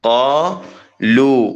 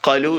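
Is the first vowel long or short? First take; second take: long; short. First: The first vowel is lengthened. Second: The first vowel is short. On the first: The speaker calls it right. "അവിടെ ഇത്- ഇത്ര ഒരളവ് ദി- നീട്ടണം" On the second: The speaker calls it wrong. "ഖലു എന്ന് പറയരുത്"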